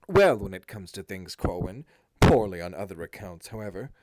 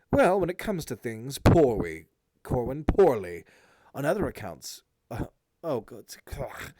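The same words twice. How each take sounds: First: Louder, lower sarcastic Eric; heavy sarcasm. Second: Drip sarcasm on every word; heavy sarcasm. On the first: Eric answering his brother Corwin with heavy sarcasm. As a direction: sneer the words with heavy sarcasm. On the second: Eric sneering sarcastically at his brother Corwin, heavy sarcasm. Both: A narrator's reading. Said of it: "his voice heavy with that which men call sarcasm".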